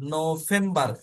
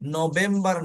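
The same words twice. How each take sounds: First: The middle consonant is an f sound. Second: The middle consonant is a v sound. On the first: The speaker calls it right. "ফাউ এই উচ্চারণ করে যাব" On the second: The speaker calls it wrong. "নভেম্বর নয়"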